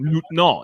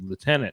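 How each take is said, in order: First: It is said with a French pronunciation. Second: It is said with an anglicized pronunciation. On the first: "It's actually how they say it in French" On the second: "anglicized over time to lieutenant"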